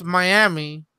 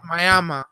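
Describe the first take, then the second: First: Said in the usual way. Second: Miami ending in "uh", as my-AM-uh; local pronunciation. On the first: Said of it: "it's spelled as Miami". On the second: Shown as a demonstration. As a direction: say Miami with a final schwa instead of "ee". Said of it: "but it's pronounced Miami".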